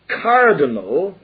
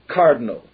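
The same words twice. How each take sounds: First: All the vowels are pronounced fully. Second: The unstressed vowels are clipped and hurried.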